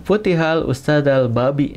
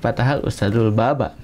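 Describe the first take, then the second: First: The final word ends with an i vowel. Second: The final word ends with an a vowel. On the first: The sentence cannot be understood. The speaker calls it wrong. "itu tidak bisa dipahami ya" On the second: The teacher opened the door. The speaker calls it right. "karena memang ini ada kaidahnya"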